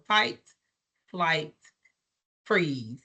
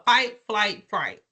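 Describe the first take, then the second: First: Low, spaced out word by word; slow self-correction. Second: Run-together list of three; said too fast. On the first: Trainer correcting her slip, slow and deliberate. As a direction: pause before FLIGHT and before FREEZE, dropping lower. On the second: Trainer naming stress responses, said too fast. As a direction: rattle off the stress responses and slip. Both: Real, not acted. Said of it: "When I say it too fast".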